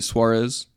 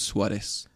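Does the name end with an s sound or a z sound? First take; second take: z sound; s sound. First: The name ends with a strong z sound. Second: The name ends with an s sound. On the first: "that W sound with a strong Z" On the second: "for Puerto Ricans, a lot of times that Z becomes an S"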